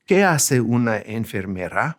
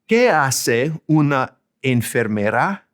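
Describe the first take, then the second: First: Said in the usual way. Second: Slow, careful Spanish with "Qué" rising; slow Spanish model question. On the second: Shown as a demonstration. Teacher models a child's question for learners. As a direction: say "¿Qué hace una enfermera?" slowly with a rising end. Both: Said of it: "So if a kid asks".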